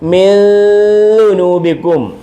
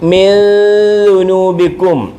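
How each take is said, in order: The two takes are said the same way.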